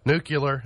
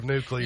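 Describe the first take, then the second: First: NUCLEAR said as NOO-kyuh-ler; mispronounced nuclear. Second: Said in the usual way. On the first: Shown as a demonstration. Host listing mistakes, NUCLEAR said as NOO-kyuh-ler. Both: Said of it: "instead of nuclear".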